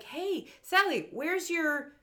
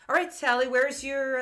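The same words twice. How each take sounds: First: High, drawn-out mock kid voice; cartoon boy. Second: A hint of cartoon grown-up, slightly raised and firm; lightly voiced adult. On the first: Boy asking Sally about her gear, mock cartoon boy. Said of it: "he's like". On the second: Adult kitting out the kids, lightly voiced grown-up. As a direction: lightly play the adult in charge. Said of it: "no, the adult".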